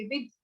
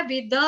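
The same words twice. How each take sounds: First: "विद" ending in a half द. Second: "विद" said as a plain द, shown as the wrong way. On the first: Teacher shows "विद" with a half द. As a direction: clip the द at the end. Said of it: "आधा द". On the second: Teacher shows the wrong way to say "विद". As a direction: model the mistake to avoid. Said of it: "ऐसे नहीं बोलेंगे". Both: Shown as a demonstration.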